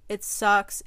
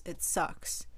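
First: It sucks pushed out louder; louder frustrated it sucks. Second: It sucks breathed out in a whisper. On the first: Venting to camera, louder frustrated it sucks. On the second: Venting to camera, it sucks whispered away. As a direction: let it sucks fade to a whisper. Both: Real, not acted.

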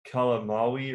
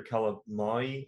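First: KALAMAUI ending in "MAU-ee"; tentative pronunciation. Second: KALAMAI ending in "MY-ee"; alternative pronunciation. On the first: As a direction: say "Kalamaui" slowly, with a separate "wee" at the end. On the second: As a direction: say "Kalamai" slowly, without any "w" near the end. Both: Shown as a demonstration. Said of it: "I don't know how to pronounce it".

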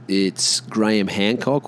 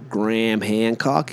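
First: Said in the usual way. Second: "Graham Hancock" with Graham squashed to one syllable, "Gram"; American pronunciation. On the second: Shown as a demonstration. Mocking how Americans say the author's name, American pronunciation. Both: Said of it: "if you're an American".

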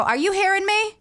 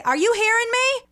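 First: Put-on calling out in a Maine accent. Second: Put-on loud high call in a thick Maine accent; mom's Maine accent. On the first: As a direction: call across the house in a Maine accent. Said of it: "an accent comes out". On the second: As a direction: shout to the other room like mom, Maine accent. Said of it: "my mom has the weirdest accent".

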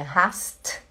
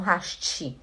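First: "hast" com T final seco, sem vogal; pronúncia alemã do T. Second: "hast" dito "hashtchi", com chiado; sotaque paraense. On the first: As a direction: say "hast" ending in a crisp bare T. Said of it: "não hast". ("hast" com T seco no final, sem som de i) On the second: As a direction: add a Belém "tchi" to the end of "hast". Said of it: "em Belém do Pará a gente fala hast". ("hast" com sotaque do Pará, "hashtchi") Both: Shown as a demonstration.

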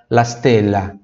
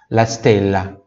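No difference in how they are said.

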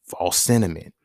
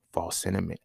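First: "False sentiment" said clearly louder with a firm falling end; emphatic louder verdict. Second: Said in the usual way. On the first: Real, not acted. Verdict repeated, louder second take.

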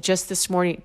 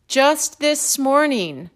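First: Said in the usual way. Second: "Just this morning" slow, higher, each word weighted; emphatic repeat. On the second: Retold or imitated. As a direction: stretch out "Just this morning" for effect, pitch raised. Repeated after "listen to this.

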